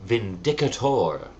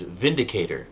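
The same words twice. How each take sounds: First: Vindicator stressed on "DIC", ending in full "tor"; pronounced vin-DICK-a-tor. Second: Vindicator with stress up front and "cay"; pronounced VIN-di-cay-ter. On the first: Retold or imitated. Quoting the classmate's insisted version, Vindicator as "vin-DIK-uh-tore". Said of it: "he insisted that it was pronounced". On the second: Shown as a demonstration. Naming the Alpha Flight leader, Vindicator said the standard way. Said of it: "which is obviously pronounced Vindicator".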